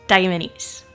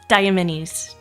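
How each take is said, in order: The two takes are said the same way.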